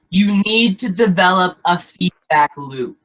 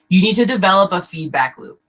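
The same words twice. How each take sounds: First: It is spoken at a noticeably slower pace. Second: It is spoken at a normal, quicker pace.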